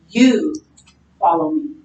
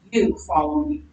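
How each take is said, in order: First: You punched, rest falls away; stress on You. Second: Said in the usual way. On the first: Shown as a demonstration. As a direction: lean hard on You. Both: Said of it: "emphasize the you".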